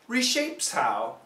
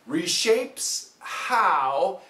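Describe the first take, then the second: First: It is said faster, with the h fading away. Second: It is said slower, with the h heard.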